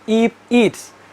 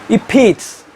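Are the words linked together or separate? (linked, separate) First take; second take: separate; linked. First: The two words are said separately. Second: The two words are linked together smoothly. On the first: The speaker calls it wrong. "not if it's" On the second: The speaker calls it right. "They pronounce if it's like that"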